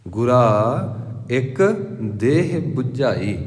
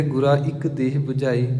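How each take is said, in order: First: Very slow, a clear pause after ਗੁਰਾ ਇੱਕ before ਦੇਹ ਬੁਝਾਈ; careful recitation. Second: ਗੁਰਾ ਇੱਕ ਦੇਹ ਬੁਝਾਈ run together in one breath, no pause; the way some people read it, quick and joined; common reading. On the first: Preacher teaches the congregation the right reading, slow with pauses. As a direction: spell it out slowly, phrase by phrase. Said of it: "ਇਹਨੂੰ ਆਪਾਂ ਇੱਕ ਕਹਿਣਾ". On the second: Preacher shows the congregation the common reading, run together. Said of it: "ਕਈ ਕਹਿੰਦੇ". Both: Shown as a demonstration.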